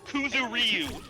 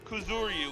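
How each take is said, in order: First: The name is said with English-dub pronunciation. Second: The name is said with Japanese pronunciation. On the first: The speaker calls it wrong. "they pronounce the name Kuzuryu as Kuzuryu" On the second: The speaker calls it right. "the name Kuzuryu"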